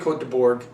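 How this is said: It is said with an American pronunciation. "We would say"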